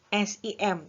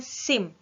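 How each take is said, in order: First: Each letter is said separately. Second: It is said as one single word. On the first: The speaker calls it wrong. "Bukan dibacanya" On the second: The speaker calls it right. "tetapi dibacanya ... Jadi sebuah kata ya"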